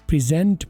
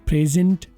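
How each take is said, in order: The two takes are said the same way.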